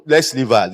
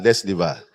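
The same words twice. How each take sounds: First: Said in the usual way. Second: Laughing. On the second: Shown as a demonstration. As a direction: lower and softer, with a laugh.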